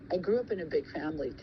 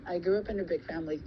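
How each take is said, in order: Both takes have the same delivery.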